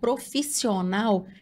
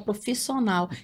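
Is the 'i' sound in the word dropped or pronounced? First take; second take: pronounced; dropped. First: The i sound is clearly pronounced. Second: The i sound is swallowed and dropped. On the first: The speaker calls it right. "Em vez de eu falar profissional" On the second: The speaker calls it wrong. "eu engoli o i"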